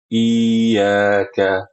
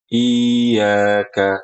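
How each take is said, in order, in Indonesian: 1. Vokal pertama dipanjangkan; huruf y-nya tunggal. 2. Vokal pertama dipanjangkan; huruf y-nya tunggal.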